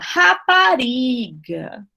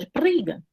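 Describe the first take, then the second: First: All vowels are fully and clearly pronounced. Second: Consonants dominate and the vowels are nearly dropped. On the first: "aqui a gente fala rapariga" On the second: "eles dão ênfase às consoantes"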